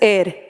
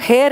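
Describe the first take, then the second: First: The word begins with a vowel sound. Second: The word begins with an h sound. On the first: The speaker calls it right. "This is एयर" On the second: The speaker calls it wrong. "इसको हेयर नहीं पढ़ोगे"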